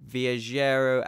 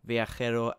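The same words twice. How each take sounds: First: The j is said like an English j. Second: The j is said like a Spanish j.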